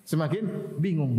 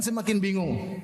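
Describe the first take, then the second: First: "Semakin bingung" drawn out slowly, both words stretched; slow it right down to drive it home; slow emphatic repeat. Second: Said in the usual way. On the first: Shown as a demonstration. Preacher repeating the point to his audience, slow and weighty.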